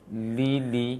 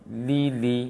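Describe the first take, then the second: The two takes are said the same way.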